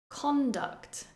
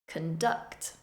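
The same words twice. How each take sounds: First: The stress is on the first syllable. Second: The stress is on the second syllable. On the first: It is a noun. "the noun form, stressing the first syllable" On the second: It is a verb. "the verb form, stressing the second syllable"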